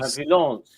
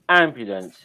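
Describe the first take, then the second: First: It is said in a French accent. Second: It is said in an English accent. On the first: "in French" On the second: "English goes ambulance"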